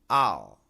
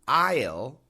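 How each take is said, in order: First: It is said in a reduced, typical form. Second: It is said in a full, careful form.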